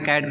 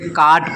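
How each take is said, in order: First: The vowel is a flat front 'ae' sound. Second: The vowel is a long open 'aa' sound. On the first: The speaker calls it right. "कैट पढ़ें ना" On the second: The speaker calls it wrong. "इसे हमें ये नहीं पता चलता है कि इसे काट पढ़ें"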